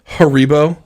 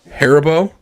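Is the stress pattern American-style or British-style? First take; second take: British-style; American-style. First: It is said with a British-style stress pattern. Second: It is said with an American-style stress pattern. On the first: This is how someone else says it. The speaker calls it wrong. "calls the gummy bears Haribo" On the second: This is how it should be said. The speaker calls it right. "and not Haribo"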